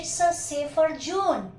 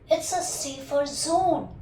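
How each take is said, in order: First: Zone begins with a j sound. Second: Zone begins with a buzzing z sound. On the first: The speaker calls it wrong. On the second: The speaker calls it right.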